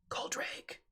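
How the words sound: The name is whispered.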